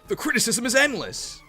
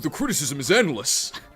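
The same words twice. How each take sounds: First: The voice is higher pitched. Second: The voice is lower pitched. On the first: It is how the speaker really sounds. The speaker calls it right. "I sound like this. It's higher pitched" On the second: It copies how friends imitate the speaker. The speaker calls it wrong. "I don't sound like that"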